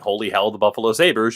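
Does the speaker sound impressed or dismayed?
dismayed. It sounds dismayed and disappointed. The team's defense is bad.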